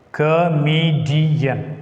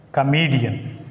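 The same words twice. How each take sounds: First: "Comedian" drawn out slowly, each syllable separated. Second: Said in the usual way. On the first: Shown as a demonstration. Teacher showing syllables of an example word, slow and divided. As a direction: stretch "Comedian" into co-me-di-an.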